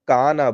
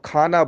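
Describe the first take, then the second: First: The first consonant is a plain unaspirated k. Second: The first consonant is a breathy aspirated kh. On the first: This is how people from the south say it. "वो लोग उसको काना बोलते हैं" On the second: This is how the speaker's own group says it. "जिसको हम लोग खाना बोलते हैं"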